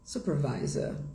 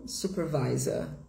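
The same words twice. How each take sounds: Both takes have the same delivery.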